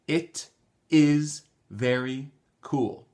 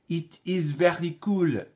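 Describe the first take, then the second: First: The word 'it' has a short 'i' vowel. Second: The word 'it' has a long 'ee' vowel. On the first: The speaker calls it right. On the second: The speaker calls it wrong. "J'entends toujours it"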